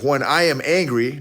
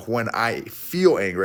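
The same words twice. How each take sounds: First: "am" leaned on in "I am angry"; stress on AM. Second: "feel" picked out in "I feel angry"; stress on FEEL. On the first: Retold or imitated. Coach quoting what he told his wife, stress on "am". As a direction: quote the old self, pressing on "am". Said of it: "notice how I said that". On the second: Shown as a demonstration. Coach showing what he didn't say, stress on "feel". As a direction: offer the alternative wording, pressing on "feel". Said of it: "I didn't say how I".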